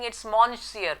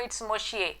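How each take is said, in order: First: It is pronounced following its written letters. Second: It is pronounced the French way, not as spelled. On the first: The speaker calls it wrong. "if you go by the spelling" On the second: The speaker calls it right. "but no"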